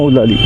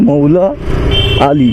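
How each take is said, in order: First: The two parts are merged into one word. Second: The two parts are said as separate words. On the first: The speaker calls it wrong. "শর্টকাটে হয়ে যাচ্ছে কি মৌলালি" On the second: The speaker calls it right. "কিন্তু আসলে ওটা কি মৌলা আলী একজনের নাম"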